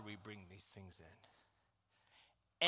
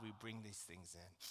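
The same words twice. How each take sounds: First: Low, very slow and soft; slow soft emphasis. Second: Soft refrain. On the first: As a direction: drag each word out quietly. Repeated, slowed refrain. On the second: Repeated sermon refrain. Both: Acted.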